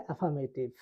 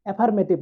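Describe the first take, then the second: First: অ্যাফার্মেটিভ with no r before the m; silent R. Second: অ্যাফার্মেটিভ with the r sounded; R pronounced. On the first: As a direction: drop the r in অ্যাফার্মেটিভ. (র বাদ দিয়ে অ্যাফার্মেটিভ) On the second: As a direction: say অ্যাফার্মেটিভ with r before the m. (র উচ্চারণ করে অ্যাফার্মেটিভ) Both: Shown as a demonstration. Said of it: "আর এর উচ্চারণ হবে না".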